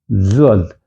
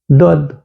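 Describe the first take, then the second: First: The word begins with a dz sound. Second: The word begins with a plain d sound. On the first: This is how it was taught around 2008. "уже буква «З» стоит «за Д»" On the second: This is how it is taught today. "А сегодня вообще буква «З» исчезла"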